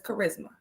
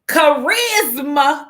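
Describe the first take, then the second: First: The name is said the usual way. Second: The name is said a different, imitated way. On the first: This is the name as it is normally said. "The girl's name is Charisma" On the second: This copies how someone else says the name. "but my daughter says charisma"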